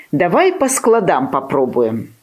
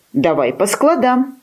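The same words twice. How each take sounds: First: Said in the usual way. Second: Higher, persistent puppy echo; undaunted puppy. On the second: A narrator's reading. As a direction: echo it gamely, pitched up. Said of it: "не сдавался Тявка".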